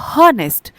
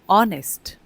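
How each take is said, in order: First: The word begins with an h sound. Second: The word begins with a vowel sound. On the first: The speaker calls it wrong. "कोई पढ़ेगा तो उसको पढ़ेगा हॉनेस्ट, but नहीं" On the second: The speaker calls it right. "यहाँ पर एच silent होता है"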